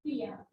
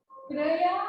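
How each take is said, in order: First: क्रिया as "kri-yaa", softly; correct pronunciation. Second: क्रिया as "kray-yaa", rising; "KRE-yaa" for क्रिया; wrong pronunciation. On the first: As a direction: say क्रिया with a short "i", hushed. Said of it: "ये शुद्ध होगा". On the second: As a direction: say क्रिया with "ay" in place of "i". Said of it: "अशुद्ध है". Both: Shown as a demonstration.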